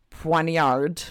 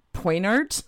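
First: Poignard said as pwahn-YAR, French style; fancy French pronunciation. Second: Said in the usual way. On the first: Shown as a demonstration. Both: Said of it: "If I'm gonna be fancy".

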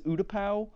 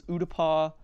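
First: Utapau with the last syllable rhyming with "cow"; final vowel of Utapau as in "now"; Utapau ending in "pow". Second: Utapau with the last syllable rhyming with "spa"; final vowel of Utapau as in "father"; Utapau ending in "pah". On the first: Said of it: "Ki-Adi-Mundi says Utapau". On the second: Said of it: "Obi-Wan says Utapau". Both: Shown as a demonstration.

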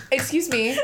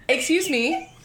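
First: Cracking up while acting the line; laughing. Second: Raised, controlled attention-getter; composed confrontation. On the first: Real, not acted. Telling how she confronted the girl, laughing helplessly. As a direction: fight through real laughter to say it. Breaks up laughing mid-story. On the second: Retold or imitated. Tapping the girl's shoulder, composed but pointed. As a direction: get her attention without laughing, pitched up.

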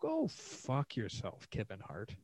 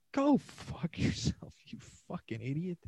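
First: Slow, drawn-out insult; slow contempt. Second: Much higher, breaking into a laugh; cracking up while telling him off; laughing insult. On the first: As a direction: drag out the words with scorn. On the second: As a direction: laugh through the curse. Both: Real, not acted. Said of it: "I'm like".

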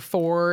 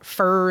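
First: Said in the usual way. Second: "fur" as the Southern way of saying for; "fur" with an er vowel instead of or; Southern pronunciation. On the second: Shown as a demonstration. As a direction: say "fur", rhyming with "her", for "for". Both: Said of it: "instead of".

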